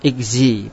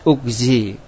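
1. Vokal pertama adalah bunyi 'i' depan. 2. Vokal pertama adalah bunyi 'u' yang bulat. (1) "Pendapat lain membolehkan membaca kasro" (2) "dibacanya tetap doma ugzi"

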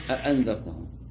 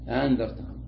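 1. الهمزتان تُنطقان كاملتين. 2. الهمزة الثانية تصير ألفًا. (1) "فتقرأ بتحقيق الهمزة الأولى وتحقيق الهمزة الثانية" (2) "تنطق الأولى همزة والثانية ألف"

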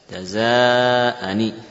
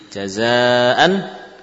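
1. Kata ini berakhir dengan bunyi n dan vokal i. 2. Kata ini berakhir dengan bunyi n mati. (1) "Bunyi nun kasrah" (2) "bunyi nun sukun"

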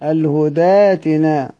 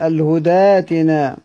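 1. الهمزة تتحول إلى ألف مدّ. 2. الهمزة تتحول إلى ألف مدّ.

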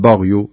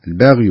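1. صوت الباء ثقيل ومفخَّم. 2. صوت الباء خفيف، غير مفخَّم. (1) "ما أقول بغي" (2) "الباء طبعا تكون مرققة"

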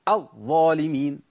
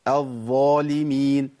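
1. الحرف المشدد يُدفع للخارج بنبرة قوية. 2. الحرف المشدد يخرج بسلاسة دون دفعة قوية. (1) "ما اقولش الظالمين ... عملت شده وعملت نبر" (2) "انا جبتها كده صواب بالشكل الصحيح"

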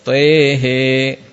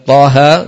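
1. Vokal-vokalnya condong ke bunyi e. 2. Vokal-vokalnya adalah bunyi a terbuka.

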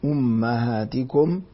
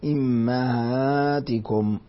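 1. الحركة الأولى u، والثانية a. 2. الحركة الأولى i، والثانية a.

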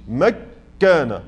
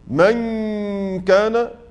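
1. النون تذوب في كاف مشدّدة. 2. النون مغنّة ومخفاة جزئيا قبل الكاف. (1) "ما قلتش مكان، هو ده الإدغام" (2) "في الإخفاء لما أقول مثلا من كان، لم تذهب النون بالكلية"

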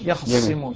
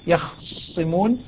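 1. الخاء تليها فتحة كاملة. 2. الخاء ساكنة قبل سين مشددة. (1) "هذا فتح الخاء" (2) "هو إسكان الخاء"

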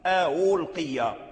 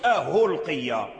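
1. الهمزة الثانية مُسهَّلة نحو الياء أو الواو. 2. الهمزة الثانية تُبدل هاءً. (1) "إذن هذا هو التسهيل" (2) "ما يقولش أهلقيا، هذا لحن"

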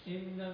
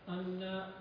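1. الكلمة تبدأ بالصوت 'i'. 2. الكلمة تبدأ بالصوت 'a'. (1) "بكسر الهمزة" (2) "بالفتح"

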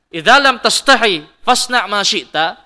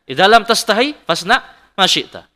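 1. Diucapkan dengan nada keras dan mengancam. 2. Diucapkan dengan nada tenang dan lembut. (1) "kalau intonasi yang jelek" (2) "Itu intonasi yang baik"

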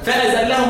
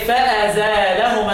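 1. لا توجد ألف ممدودة، واللام مشدّدة. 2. بعد الزاي ألف ممدودة، واللام مفردة. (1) "والباقي يقول ايه؟ ... عكس التخفيف التثقيل وعكس الزيادة الحذف" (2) "مين اللي قراها فازالهما؟ حمزه"

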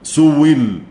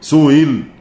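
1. الهمزة تُبدل بصوت الواو. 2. الهمزة مسهّلة بين بين. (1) "الإبدال واو سئل واو مكسورة" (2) "فيها برضو التسهيل"

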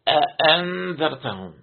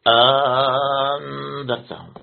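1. الهمزتان تُنطقان نطقًا تامًا. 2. الهمزة الثانية تصير حرف مد طويل. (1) "بتحقيق الهمزة الأولى والثانية" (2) "إبدال الهمزة الثانية ألفة"

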